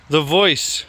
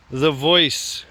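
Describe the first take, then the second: No difference in how they are said.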